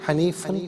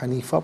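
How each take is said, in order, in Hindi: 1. शब्द n की आवाज़ पर खत्म होता है। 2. शब्द लंबे 'a' पर खत्म होता है। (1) "हनीफन पढ़ेंगे" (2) "वफ की सूरत में हनीफा पढ़ेंगे"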